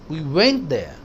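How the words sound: The stress is on the word went. We actually went instead of calling. "ऐसे नहीं कि हमने call किया, हम गए वहां"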